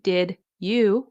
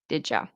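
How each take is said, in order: First: Both words are said separately and fully. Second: The words blend with a j sound and weak vowel. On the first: "which you learn in um, in school" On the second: "you'll hear it sound like did ya"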